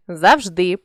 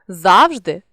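First: Завжди with final ДИ stressed; stress on last syllable. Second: Завжди with ЗАВ stressed; stress on first syllable. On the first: Teacher shows a stress variant, завжди stressed on ДИ. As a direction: land on ДИ ending завжди. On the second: Teacher shows a stress variant, завжди stressed on ЗАВ. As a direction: punch the opening ЗАВ of завжди. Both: Shown as a demonstration. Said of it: "наголосивши той чи інший склад".

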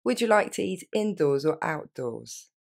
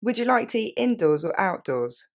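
First: Slow, careful polite question; courteous waiter asking where to sit. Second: Said in one breath at normal pace; one fluid polite question. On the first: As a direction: ask it gently, word by word. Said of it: "un petit peu plus polie". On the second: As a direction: run it together smoothly. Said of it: "Et je répète d'un coup". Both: Shown as a demonstration.

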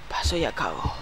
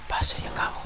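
First: Said in the usual way. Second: Whisper. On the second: Real, not acted. Repeating in whisper.

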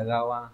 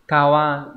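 First: Gawa with a voiced g, dropped softer as the wrong version; wrong reading gawa. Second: Kawa with a clear voiceless k, said a bit louder; correct reading kawa. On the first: Teacher showing the wrong reading, quiet gawa. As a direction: softly say the rejected form gawa. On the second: Teacher correcting a misreading, firm clear Kawa. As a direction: stress the hard k at the start of Kawa. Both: Shown as a demonstration. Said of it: "không phải là gawa".

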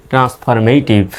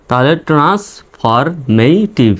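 First: Said in the usual way. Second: transformative drawn out very slowly, each syllable clear; slowly enunciated transformative; slow demo. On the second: Shown as a demonstration. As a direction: spell transformative out slowly for learners. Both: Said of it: "উচ্চারণ হবে".

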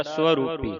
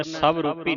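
First: ਸਵਰੂਪੀ said so-rupi, no v sound. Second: ਸਵਰੂਪੀ said sav-rupi, with a v; wrong v reading. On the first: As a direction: read the opening of ਸਵਰੂਪੀ as so. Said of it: "ਇਸ ਤਰ੍ਹਾਂ ਪੜ੍ਹਨਾ ਹੈ". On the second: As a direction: sound the v in ਸਵਰੂਪੀ. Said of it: "ਸਵਰੂਪੀ ਨਹੀਂ ਪੜ੍ਹਨਾ". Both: Shown as a demonstration.

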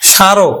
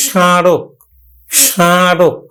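First: স্মারক as plain sharok, oral first vowel; without nasalisation. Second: স্মারক as shãrok, first vowel through the nose; nasalised vowel. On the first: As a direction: say স্মারক briskly with no nasal sound. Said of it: "কিন্তু আসলে উচ্চারণটা হবে". (স্মারক চন্দ্রবিন্দু ছাড়া উচ্চারণ) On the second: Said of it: "নাকের উপর একটু প্রভাব দিতে হবে". (স্মারক নাকি সুরে উচ্চারণ) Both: Shown as a demonstration.

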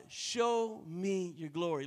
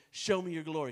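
First: Slow, earnest plea to God. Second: Said in the usual way. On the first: Shown as a demonstration. Preacher praying slowly to God for glory. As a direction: draw out each word as a prayer. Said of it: "that's why I say to God". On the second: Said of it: "look at your neighbor and say".

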